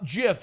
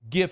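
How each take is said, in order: First: The word begins with a soft J sound. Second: The word begins with a hard G sound. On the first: "GIF is like the peanut butter. That's with a J" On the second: "GIF is like a gift. With a G"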